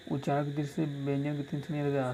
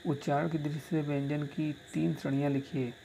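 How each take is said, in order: First: Rattled off faster the second time; quick repeat. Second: Said in the usual way. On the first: Shown as a demonstration. Teacher re-reads the question to students, quickly. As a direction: repeat the question briskly for dictation. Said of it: "first reading of the question". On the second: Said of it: "repeats the question".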